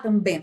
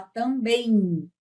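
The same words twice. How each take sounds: First: TAMBÉM with a sounded final M and no I; wrong pronunciation. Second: TAMBÉM as tam-beim, with an I glide; natural nasal diphthong. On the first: Teacher rejecting a pronunciation, hard M ending. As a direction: end também on closed lips, tam-bemm. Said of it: "Não fala também". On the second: Teacher giving the real pronunciation, beim ending. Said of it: "aparece um I". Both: Shown as a demonstration.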